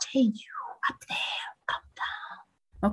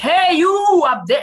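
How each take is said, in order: First: It is said softly. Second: It is said loudly.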